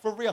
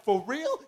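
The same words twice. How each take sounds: First: For real. with a falling, settled tune; flat confirmation. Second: For real? with a rising, questioning tune; disbelieving question. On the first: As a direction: state "For real." dropping at the end. Friend confirms it flatly. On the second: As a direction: ask "For real?" going up at the end. Asks in disbelief. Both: Retold or imitated.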